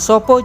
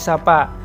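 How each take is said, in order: First: The vowels are pronounced as 'o'. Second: The vowels are pronounced as 'a'. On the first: This is the common Javanese form. "umumnya bahasa Jawa sekarang memakai bunyi vokal huruf O" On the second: This is the Banyumasan dialect form. "bahasa Panginyongan menggunakan A"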